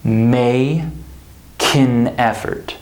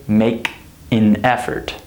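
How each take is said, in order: First: K of "make" carried over, "may kin effort"; slow demo of linking, "may ... kin effort"; linked. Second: "make", "an", "effort" as separate words; disconnected "make an effort", no linking; unlinked. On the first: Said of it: "We say". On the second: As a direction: keep a gap after "make" and before "effort". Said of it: "So we don't say". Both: Shown as a demonstration.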